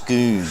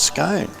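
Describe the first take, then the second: First: The vowel is an 'oo' sound. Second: The vowel is an 'oh' sound. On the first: The speaker calls it right. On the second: The speaker calls it wrong.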